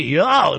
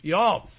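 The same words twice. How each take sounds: First: Botched drawn-out y'all with a crack. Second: Said in the usual way. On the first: Real, not acted. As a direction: let the voice break mid-word, adolescent style. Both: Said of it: "My voice cracked there".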